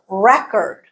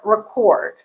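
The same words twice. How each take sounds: First: The stress is on the first syllable. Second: The stress is on the second syllable. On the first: It is a noun. "Stress is on the first syllable" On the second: It is a verb. "So we have the stressed vowel in there"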